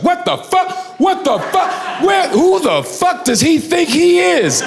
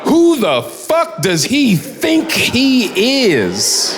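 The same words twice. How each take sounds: First: High, outraged shouting; mock furious yell. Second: Laughing repeat. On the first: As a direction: ham up a grown man losing it over a turtle. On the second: Retold or imitated. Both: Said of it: "heard an adult man say that".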